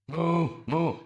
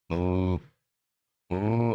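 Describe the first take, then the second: First: Higher-pitched imitation moos; cow moo with meaning. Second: Low, level imitation moo; pure cow moo. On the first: Cow trying to say something, higher imitated moos. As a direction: moo as if saying something in words. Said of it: "I'm saying something". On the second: Speaker drops human thoughts to be a cow, low moo. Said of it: "I'm now not gonna be a human".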